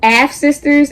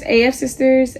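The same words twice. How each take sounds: First: "Af Sisters" with Af as one syllable; brand name as a word. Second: "A F Sisters" with A and F as separate letters; brand name spelt out. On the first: Vlogger testing a brand name, "Af Sisters" as a word. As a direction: try "Af Sisters", reading Af as a word. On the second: Vlogger testing a brand name, "A F Sisters" letter by letter. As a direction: spell out the A and F in "A F Sisters". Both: Shown as a demonstration. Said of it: "see if I'm saying this right".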